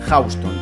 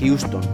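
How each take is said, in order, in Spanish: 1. Se dice como la calle de Nueva York. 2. Se dice como el nombre de la ciudad de Texas. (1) "cuando esa palabra está asociada a la calle neoyorquina es Houston" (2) "En cualquier contexto sería Houston"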